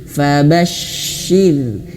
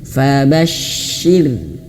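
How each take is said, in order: No difference in how they are said.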